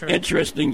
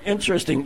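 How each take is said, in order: First: It is said in a flat, bored tone. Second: It is said in a lively, excited tone. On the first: The speaker does not really care. "yeah, whatever" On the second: The speaker finds it great. "wow, that's great"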